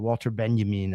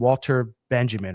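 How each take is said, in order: First: The name is pronounced the French way. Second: The name is pronounced the English way.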